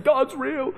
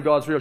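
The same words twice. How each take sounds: First: High, mock-weepy voice; retold crying, pitched high; imitated tearful cry. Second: Said in the usual way. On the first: Son sitting on mum's bed for ages, imitated tearful cry. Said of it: "And so I cried". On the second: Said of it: "half an hour of saying".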